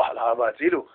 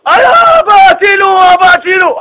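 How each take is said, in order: First: Soft, higher mock cry; hushed imitation of a yell; retold cry for help. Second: High, drawn-out, loud cry for help; hammed-up desperate child's shout; screaming for help. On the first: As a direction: echo a child's scream under the voice. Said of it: "ככה הבן צועק". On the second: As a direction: scream for Dad to rescue you. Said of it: "פתאום שועקים צעקות".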